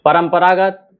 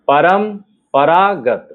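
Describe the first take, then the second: First: Said in the usual way. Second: Slow परंपरागत, split परम... परागत; measured dictation of परंपरागत for writing; syllable by syllable. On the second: Shown as a demonstration. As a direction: say परंपरागत in long pieces with a pause. Word dictated in pieces.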